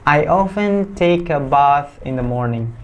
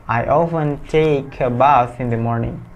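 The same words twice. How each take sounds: The two takes are said the same way.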